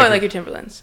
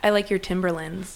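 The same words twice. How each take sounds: First: The words are mushed together casually. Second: Each word is enunciated clearly and separately. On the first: The speaker calls it right. "a lot of mushing the word together helps" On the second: The speaker calls it wrong. "I wouldn't enunciate so much as you say"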